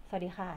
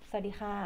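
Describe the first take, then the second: The two takes are said the same way.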